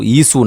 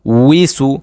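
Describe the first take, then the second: First: ইসু said without the w, as a wrong example; wrong reading isu. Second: উইসু with a clear w onset, falling; correct wisu. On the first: Teacher shows the wrong pronunciation ইসু. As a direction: say ইসু as the mistake to avoid. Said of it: "ইসু না". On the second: Teacher confirms the correct pronunciation উইসু. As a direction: say উইসু with the w sound fully voiced. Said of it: "হ্যাঁ, উইসু". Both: Shown as a demonstration.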